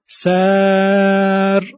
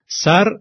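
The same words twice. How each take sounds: First: The vowel is drawn out long. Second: The vowel is short.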